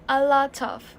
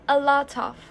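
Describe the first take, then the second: First: The t sound runs straight into of. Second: The same.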